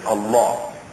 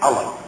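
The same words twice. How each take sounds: First: It is said with a native Arabic pronunciation. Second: It is said with a Western, English-style pronunciation. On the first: "We pronounce it actually as" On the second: "usually pronounced in the West as"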